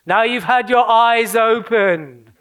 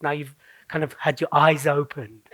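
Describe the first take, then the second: First: Slow, hammed-up grand announcement; big, drawn-out dramatic revelation; theatrical proclamation. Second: Said in the usual way. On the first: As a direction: draw it out like a mock prophet. Hammed-up repeat of own line.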